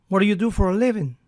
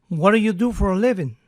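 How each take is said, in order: The two takes are said the same way.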